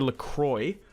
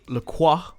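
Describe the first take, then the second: First: The name is pronounced the English way. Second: The name is pronounced the French way. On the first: Other people say it this way. The speaker calls it wrong. "I guess that's how you'd probably anglicize it" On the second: This is the name's own pronunciation. The speaker calls it right. "I think that's how you say his name"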